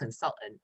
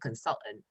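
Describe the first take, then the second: First: The T sound is dropped or held. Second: The T sound is dropped or held.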